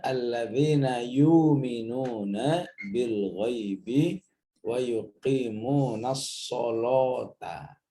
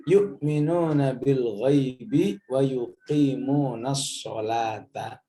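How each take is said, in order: First: "sholata" with a heavy, full-mouth lam, slow; "wa yuqimunas sholata" read with the lam darkened like shad. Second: Said in the usual way. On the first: Shown as a demonstration. Teacher demonstrating the other tribe's heavy "sholata". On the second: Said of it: "sekelompok suku begini cara bacanya".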